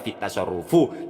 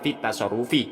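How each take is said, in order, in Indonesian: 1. Kata itu berakhir dengan vokal u. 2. Kata itu berakhir dengan vokal i. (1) "jangan dibaca fit tasarrufu" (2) "sehingga bacanya fit tasarrufi"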